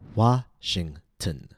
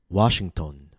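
First: The last syllable has a short reduced vowel. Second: The last syllable has a full unreduced vowel. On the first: The speaker calls it right. "Notice how the letter O was reduced to schwa" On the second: The speaker calls it wrong. "A common mistake is"

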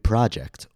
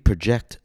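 First: The stress falls on the first syllable. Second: The stress falls on the second syllable. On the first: It is a noun: a planned piece of work. "When the word is used as a noun, the stress will fall on the first syllable" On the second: It is a verb: to estimate or forecast. "When the word is used as a verb, the stress will fall on the second syllable"

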